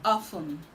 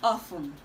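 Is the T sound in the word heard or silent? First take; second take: silent; silent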